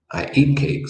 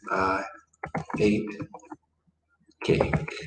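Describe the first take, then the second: First: Said in the usual way. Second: I ... ate ... cake, each word set apart with long pauses; slow, word by word. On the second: Shown as a demonstration. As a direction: spell out "I ate cake" one word at a time, slowly. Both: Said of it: "So what would that be?".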